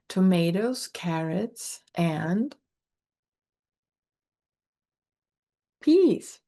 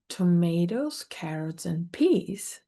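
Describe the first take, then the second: First: There is a pause after 'and'. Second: There is no pause after 'and'. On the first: "he likes to punctuate an and with a pause" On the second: "where we might say"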